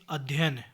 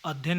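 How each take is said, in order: First: अध्ययन with the middle य kept; correct pronunciation. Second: अध्ययन shortened, middle य run together; wrong pronunciation. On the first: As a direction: say अध्ययन fully as 'adh-ya-yan', falling. (अध्ययन का पूरा, सही उच्चारण) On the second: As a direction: say अध्ययन wrongly, as 'adh-yan'. (अध्ययन का गलत, छोटा उच्चारण) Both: Shown as a demonstration. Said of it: "अध्ययन नहीं".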